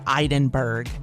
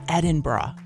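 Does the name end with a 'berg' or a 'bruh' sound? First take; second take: berg; bruh. First: The name ends with a 'berg' sound. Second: The name ends with a 'bruh' sound. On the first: The speaker calls it wrong. "It's not Edinburgh or Edinburgh, as a lot of people say" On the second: The speaker calls it right. "It's Edinburgh"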